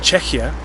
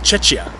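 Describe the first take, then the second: First: The word sounds clearly different from Chechnya. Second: The word sounds very close to Chechnya. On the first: The speaker calls it right. "instead of saying Czechia" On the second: The speaker calls it wrong. "they say Czechia, which sounds dangerously close to Chechnya"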